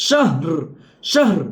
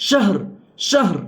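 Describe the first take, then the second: The two takes are said the same way.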